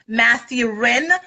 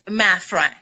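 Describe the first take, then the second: First: The name is split into English-sounding parts. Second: The name is said compactly in its original form. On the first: It helps English speakers find and spell the name. "I break it down for um, English speakers" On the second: This is how the name is really said. "but it's actually pronounced Mathrin"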